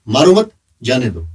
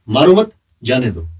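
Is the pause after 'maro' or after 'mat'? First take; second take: after mat; after mat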